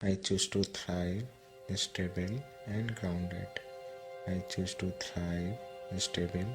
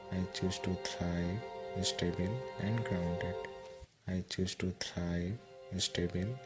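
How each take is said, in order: Both takes have the same delivery.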